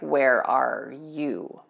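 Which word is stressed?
you. The stress falls on the word you.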